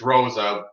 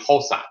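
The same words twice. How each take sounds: First: The name begins with an English R sound. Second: The name begins without an English R sound. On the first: The name is said the English way. "It's Rosa because he's not Portuguese" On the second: The name is said the Portuguese way. "in Portuguese they don't say the R"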